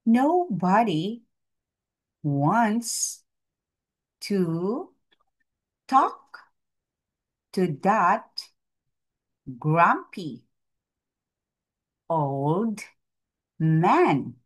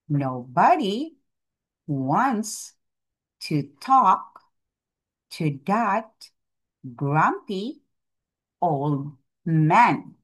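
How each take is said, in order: First: It is read at a normal pace. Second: It is read at a faster pace.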